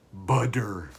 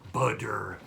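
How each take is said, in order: First: A D-like middle sound and a hard final R. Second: The same.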